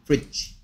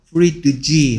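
First: No separate d sound is pronounced before g. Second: A separate d sound is pronounced before g. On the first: The speaker calls it right. "그냥 fridge" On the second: The speaker calls it wrong. "fridge 하면 발음이 어렵기 때문에"

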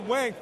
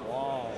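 First: The name is said tough and mean. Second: The name is said smooth and sexy. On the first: The speaker is acting rough. "Wang sounds a little bit more mean" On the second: The speaker is flirting. "Wong sounds a little bit more sexy"

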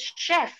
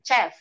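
First: It begins with a 'sh' sound. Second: It begins with a 'ch' sound. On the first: The speaker calls it right. "CH juga ada yang dibaca sheh ... we say chef" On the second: The speaker calls it wrong. "not chef"

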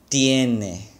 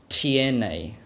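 The two takes are said the same way.

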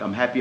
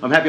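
First: It sounds flat and unconvinced. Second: It sounds heartfelt and convinced.

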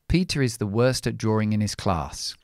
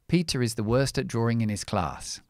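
No difference in how they are said.

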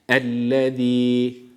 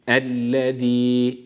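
First: The z is a soft lisped th-like sound. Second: The z is a soft lisped th-like sound.

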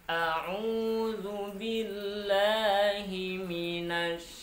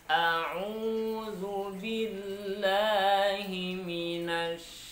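The two takes are said the same way.

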